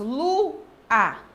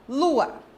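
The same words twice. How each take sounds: First: The word is broken into two separate parts. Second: The word is said as one joined unit. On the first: The speaker calls it wrong. "Eu não faço lua" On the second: The speaker calls it right. "Tudo junto"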